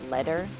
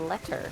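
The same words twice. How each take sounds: First: The middle consonant sounds like a soft D. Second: The middle consonant sounds like a crisp T.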